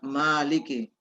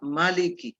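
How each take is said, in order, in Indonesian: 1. Vokal pertama itu panjang. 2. Vokal pertama itu pendek. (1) "yang umum itu dibaca Maliki. Jadi barisnya ini berdiri" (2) "ada juga yang baca Maliki"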